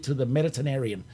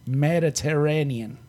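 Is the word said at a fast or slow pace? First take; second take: fast; slow. First: The word is said at a normal, quicker pace. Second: The word is said slowly and carefully. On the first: The speaker calls it wrong. "I hate saying that word because I can't say it" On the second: The speaker calls it right. "I could slow down and read it"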